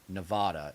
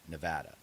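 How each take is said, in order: First: The stressed vowel is not the 'sat' vowel. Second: The stressed vowel sounds like 'a' in 'sat'. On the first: The speaker calls it wrong. "most people pronounce it the wrong way. It's not Nevada" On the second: The speaker calls it right. "it's ne- Nevada, ... It's a sat"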